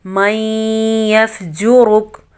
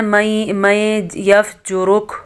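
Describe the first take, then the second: First: मैं merged into यफजुरुक with a nasal ghunna; tajweed-correct. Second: मैं यफजुरुक with the n kept separate; no merging into यफजुरुक; wrong way. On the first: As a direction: idgham with nasal hum. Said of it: "गुन्ना पैदा हो रहा है यहाँ पे इदगाम". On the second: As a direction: common mistake. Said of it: "लोगों को मैंने पढ़ते हुए सुना है". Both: Shown as a demonstration.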